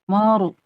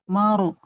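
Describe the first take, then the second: Both takes have the same delivery.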